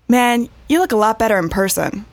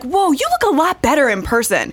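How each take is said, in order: First: It sounds flat and disappointed. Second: It sounds excited and impressed.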